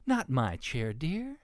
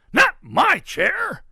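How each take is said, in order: First: Restrained, lilting up high on "dear"; snuffing Mama pig. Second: Slow, high, very loud protest; shout. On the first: Mama pig sees Ruby in her chair, mildly objecting. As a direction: object mildly with a lifted ending. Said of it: "snuffed Mama Sniff". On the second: Papa pig sees Ruby in his chair, shouting. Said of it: "shouted Papa Sniff". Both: A narrator's reading.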